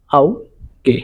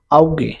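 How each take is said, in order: First: "আউগে" split in two, pausing after আউ; syllable by syllable. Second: Said in the usual way. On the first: Shown as a demonstration. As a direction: break "আউগে" into আউ, pause, গে. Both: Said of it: "আউ এর মতন উচ্চারণ হবে".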